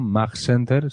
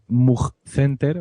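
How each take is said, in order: First: The vowel in 'Mug' is an open 'uh'. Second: The vowel in 'Mug' is a rounded 'oo'.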